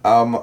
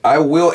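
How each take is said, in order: First: The phrase is shortened to a reduced form. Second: The phrase is said in full. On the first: "I will becomes ... it becomes I'm a" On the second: "I will ends up becoming"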